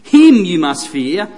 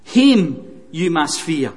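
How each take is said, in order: First: "Him" punched louder, slow and deliberate; slow, emphatic "Him" to open the line; stress on HIM. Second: Slow, measured "Him" leaned on; "Him you must fear" with the weight on Him, unhurried; stress on HIM. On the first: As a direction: hammer "Him" at the front of "Him you must fear". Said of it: "do you see the emphasis there?". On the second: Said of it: "The emphasis is really on God". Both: Shown as a demonstration.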